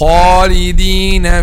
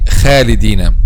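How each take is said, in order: First: The long a vowel is full and heavy. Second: The long a vowel is thin and light. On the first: The speaker calls it right. "so it should be heavy. ... Yes, like this" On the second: The speaker calls it wrong. "Some people say خالدين, and this is completely wrong"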